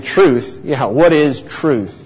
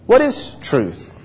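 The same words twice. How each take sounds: First: Slow, mildly mocking question. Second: Higher, slow, sincere question; startled, sincere. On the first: Preacher acts out Pilate answering Jesus, mocking. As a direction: scoff lightly at the very idea, taking your time. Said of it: "Was it a mocking tone of voice". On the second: Preacher tries Pilate's question another way, startled and sincere. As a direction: ask it softly, taken aback and truly wanting to know. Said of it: "a sort of startled, sincere question". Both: Shown as a demonstration.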